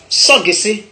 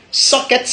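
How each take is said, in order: First: "soggessé" in three open syllables; Godié pronunciation. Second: "Socket" with a closed consonant ending; English pronunciation. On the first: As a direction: say so-gué-sé, ending on é. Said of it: "on dit soggessé". (« soggessé » à la godié, so-gué-sé) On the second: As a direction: say sock-et with a hard k. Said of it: "En anglais, on dit". (« Socket » à l'anglaise, finale fermée) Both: Shown as a demonstration.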